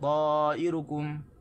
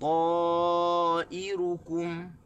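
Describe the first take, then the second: First: No syllable is given any stress. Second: The final syllable kum is stressed. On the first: The speaker calls it wrong. "tanpa tekanan pada mana-mana bahagian" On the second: The speaker calls it right. "tekan di kaf"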